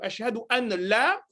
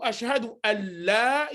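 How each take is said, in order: First: The n is pronounced separately before the l. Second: The n merges into the following l. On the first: The speaker calls it wrong. "au lieu de ashhadu an la, comme certains le disent, non" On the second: The speaker calls it right. "je suis dans ce qu'on appelle idram"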